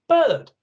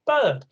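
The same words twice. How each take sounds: First: Put-on high excited toddler "Bird"; bright toddler exclamation, high and loud; little child saying bird. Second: Put-on high childlike "Bird"; a small child naming the picture; little child saying bird. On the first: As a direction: say "Bird" like a tiny child pointing. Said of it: "they just go". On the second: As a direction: lighter toddler "Bird". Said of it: "they go".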